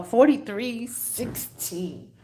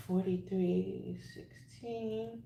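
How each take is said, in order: First: Said in the usual way. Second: Very soft, slow repeat; murmured to oneself. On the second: Real, not acted. Reader repeats a number to herself, murmured very softly. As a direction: repeat it slowly under your breath.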